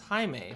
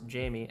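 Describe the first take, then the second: First: The name is said with Spanish sounds. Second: The name is said with English sounds.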